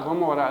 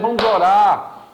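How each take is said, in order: First: It is said casually, with low energy. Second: It is said forcefully, with high energy.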